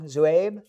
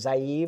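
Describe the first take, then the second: First: The name begins with a 'zoo' sound. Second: The name begins with a 'zai' sound. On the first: The speaker calls it right. "it's Zoo" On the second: The speaker calls it wrong. "I keep on saying Zaib and that's wrong?"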